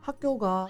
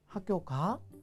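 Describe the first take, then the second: First: It is said with Gyeongju dialect tone. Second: It is said with standard Korean intonation.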